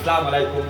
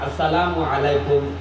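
First: The greeting starts with 'sa', dropping 'as'. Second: The greeting starts with the full 'as' sound. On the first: The speaker calls it wrong. "মুসলমান সালামও শুদ্ধ করে দিতে জানে না।" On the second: The speaker calls it right. "নামাজে আসসালামু আলাইকুম"

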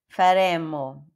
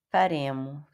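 First: The middle consonant is held long. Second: The middle consonant is short, not lengthened. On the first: This is how Italians say it. The speaker calls it right. "Como que os italianos falam?" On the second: This is how Portuguese speakers read it. The speaker calls it wrong. "a gente lê isso aqui como"

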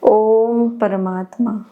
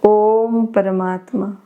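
No difference in how they are said.

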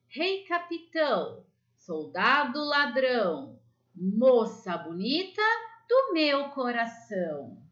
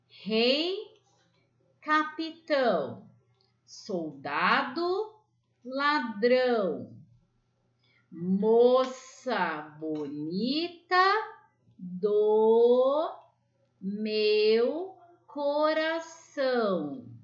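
First: The rhyme is recited at the quickest pace. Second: The rhyme is recited at a slow pace.

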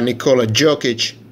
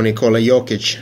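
First: The name is said with an English pronunciation. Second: The name is said with a Serbian pronunciation.

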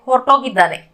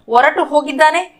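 First: The words are joined and the final u is dropped. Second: The two words are said separately with the final u.

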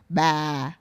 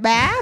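First: The pitch falls across the syllable. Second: The pitch rises across the syllable. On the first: "if you say with a downward tone" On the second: "but you can say it up"

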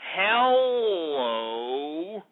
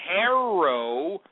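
First: The middle consonant is an L sound. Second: The middle consonant is an R sound. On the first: The speaker calls it right. "It's Hello" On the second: The speaker calls it wrong. "it's not Harrow"

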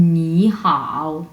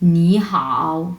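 The two takes are said the same way.

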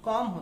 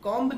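First: The final b is silent. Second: The final b is pronounced. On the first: The speaker calls it right. "comb होता है" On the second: The speaker calls it wrong. "comb नहीं होता"

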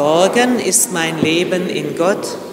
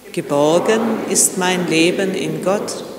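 The two takes are said the same way.

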